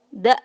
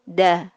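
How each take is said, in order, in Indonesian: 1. Suku kata ini diakhiri hamzah. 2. Suku kata ini diakhiri vokal terbuka. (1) "bukan da ya ... Tidak boleh ada hamzahnya di ujung" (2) "tapi da"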